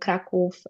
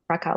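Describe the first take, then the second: First: The name has a Polish pronunciation. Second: The name has an English pronunciation. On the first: "I refuse to say it the, uh, the any other way" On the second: "Krakow is the English pronunciation"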